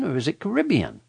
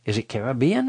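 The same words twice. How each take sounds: First: "Caribbean" as kuh-RIB-ee-un; stress on RIB. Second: "Caribbean" as care-uh-BEE-un, questioning; stress on BEE. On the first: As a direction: offer the other option, "Caribbean" stressed on the second syllable, RIB. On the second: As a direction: ask it with "Caribbean" stressed on the third syllable, BE. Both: Shown as a demonstration. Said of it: "don't even know how to say it".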